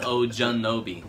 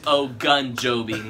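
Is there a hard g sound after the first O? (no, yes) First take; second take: no; yes. First: A j sound follows the first O. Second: A hard g sound follows the first O. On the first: The speaker calls it wrong. "not Ojunobi" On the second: The speaker calls it right. "Said it's Ogunjobi"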